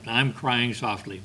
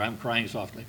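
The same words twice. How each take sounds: First: Said in the usual way. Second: I'm crying softly dropped much softer, almost under the breath; softer repeat. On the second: Retold or imitated. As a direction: let the repeat fade meekly. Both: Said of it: "He was saying".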